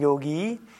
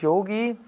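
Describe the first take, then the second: First: The vowels are long. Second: The vowels are short. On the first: The speaker calls it right. "erstes O und letztes I ist lang" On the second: The speaker calls it wrong. "Eigentlich ist es nicht Yogi"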